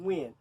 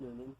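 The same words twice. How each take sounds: First: The name is said with its native pronunciation. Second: The name is sounded out as it is spelled. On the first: "the actual way of pronouncing it is Nguyen" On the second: "I like to pronounce it Nguyen phonetically"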